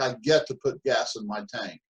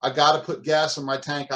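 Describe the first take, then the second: First: Grateful get to. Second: Grudging gotta. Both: Shown as a demonstration. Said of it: "difference between those two thought processes".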